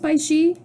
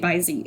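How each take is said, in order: First: The second syllable starts with a 'sh' sound. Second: The second syllable starts with a 'z' sound. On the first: The speaker calls it wrong. "I don't think it's Bai Shi" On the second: The speaker calls it right. "I think you would say Bai Zi"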